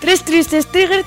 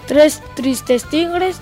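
First: The phrase is spoken quickly. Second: The phrase is spoken at normal speed. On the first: "Y vamos con la velocidad rápida" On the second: "Vamos con la velocidad normal"

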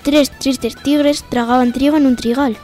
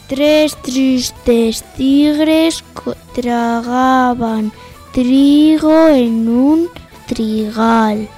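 First: The sentence is spoken at a normal speed. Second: The sentence is spoken at a slow speed. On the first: "A cámara normal o velocidad normal" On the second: "Empezamos por la lenta"

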